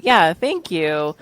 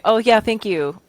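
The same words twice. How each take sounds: First: Slow, receptive thanks; unhurried, accepting thanks; taking it in. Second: Higher, passing thanks; polite deflection of a compliment; brushing off. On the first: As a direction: take a second to let the compliment land. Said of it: "really taking a second to receive that". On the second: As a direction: toss off the thanks without taking it in. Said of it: "you're not actually taking in the compliment". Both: Shown as a demonstration.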